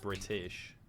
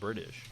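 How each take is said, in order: First: The middle T sounds crisp and clear. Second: The middle T sounds soft, like a D. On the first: "Instead of saying British" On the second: "just I did it just then"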